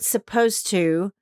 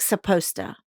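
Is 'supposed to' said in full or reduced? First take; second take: full; reduced. First: Every sound is pronounced clearly and fully. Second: Sounds are dropped and run together quickly.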